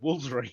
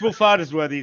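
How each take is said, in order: First: The name is squeezed into two or three syllables. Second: All syllables of the name are said. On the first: This is how local people say it. "the locals just call it" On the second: This is the official form of the name. "is the official name"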